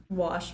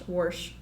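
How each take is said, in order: First: Said in the usual way. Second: "warsh" with an r slipped in; "warsh" as dad says it for wash. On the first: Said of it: "instead of". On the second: Retold or imitated. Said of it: "instead of "wash".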